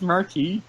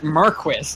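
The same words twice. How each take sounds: First: It is said with a French pronunciation. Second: It is said with an anglicized pronunciation. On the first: The speaker calls it right. "it's Marquis? ... It's a French word" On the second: The speaker calls it wrong. "they pronounce it Marquis every single time"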